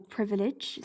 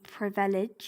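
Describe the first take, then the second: First: The middle vowel sounds like 'ih'. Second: The middle vowel sounds like 'eh'. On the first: The speaker calls it right. "you say privilege" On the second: The speaker calls it wrong. "you don't say privilege"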